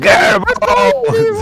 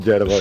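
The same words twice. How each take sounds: First: Very high, loud drawn-out yell; shrieked call from the crowd; shouting. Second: Said in the usual way. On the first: Acted. Some villager calling after the wagon, high shout. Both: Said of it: "Some guy there shouting".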